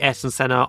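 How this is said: The name is said with a British pronunciation. "most British people say Ayrton Senna"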